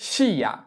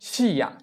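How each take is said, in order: First: An i sound is heard before the a. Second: The same.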